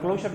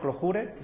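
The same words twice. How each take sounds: First: The word is said English-style with an s-sound. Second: The word is said with Spanish sounds. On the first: "con S" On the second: "lo decimos en español"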